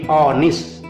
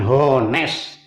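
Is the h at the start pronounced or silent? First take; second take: silent; pronounced. First: The initial h sound is silent. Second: The initial h sound is pronounced. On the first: The speaker calls it right. "hanya nggak dibaca, ... tapi honest" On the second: The speaker calls it wrong. "bukan honest"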